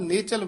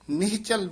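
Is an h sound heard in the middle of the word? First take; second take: no; yes. First: No h sound is heard after the first vowel. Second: An h sound is heard after the first vowel. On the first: The speaker calls it wrong. "ਹਾਹਾ ਬੋਲਿਆ ਹੀ ਨਹੀਂ ਜਾਂਦਾ ਵਿੱਚ" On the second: The speaker calls it right. "ਨਿਹ ਨਿਹਚਲ ਬੋਲਣਾ"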